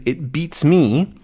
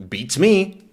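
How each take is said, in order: First: "It beats me" said slowly and clearly; teaching the phrase. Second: "Beats me" tossed off high and light; casual usage. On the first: Teacher showing students the phrase "It beats me", slow and clear. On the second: Teacher showing how the phrase sounds in use, breezy. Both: Shown as a demonstration. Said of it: "this is a good phrase".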